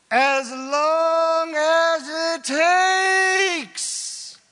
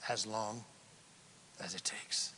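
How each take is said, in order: First: Very loud, high, drawn-out bellow; impassioned shout. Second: Very soft, low, measured answer; hushed. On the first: Preacher answers how long to keep apologizing, impassioned shout. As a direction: belt it out, stretching every word. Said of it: "I pegged the meter right there". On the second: Preacher repeats the answer on true repentance, hushed. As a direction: drop right down, pausing midway. Calm retake after the shout. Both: Real, not acted.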